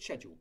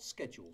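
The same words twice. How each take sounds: First: The word is said with a British pronunciation. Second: The word is said with an American pronunciation. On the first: The speaker calls it right. "But schedule" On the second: The speaker calls it wrong. "not schedule, school, but not schedule. Schedule is an Americanism"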